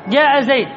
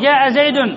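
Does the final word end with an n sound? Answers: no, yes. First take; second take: no; yes. First: The name ends with no vowel or n. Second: The name ends with an -un sound. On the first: The speaker stops on the word. "قف عليها" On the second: The phrase is in running speech. "إن كانت الكلية مرفوعة تقول جاء زيد"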